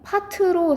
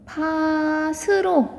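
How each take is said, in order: First: The final consonant links over as a t sound. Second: The final consonant links over as an s sound. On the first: The speaker calls it right. "파트로 사실 이렇게 발음해야 돼요" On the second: The speaker calls it wrong. "파스로 이렇게 발음을 하거든요"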